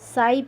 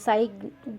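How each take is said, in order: First: The word ends without a g sound. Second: The word ends with a g sound. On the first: The speaker calls it right. "साई पढ़ते हैं" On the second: The speaker calls it wrong. "साई घ नहीं पढ़ते हैं"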